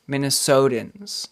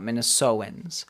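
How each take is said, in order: First: The T sound is clearly pronounced. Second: The T sound is glossed over and skipped. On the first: The speaker calls it right. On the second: The speaker calls it wrong.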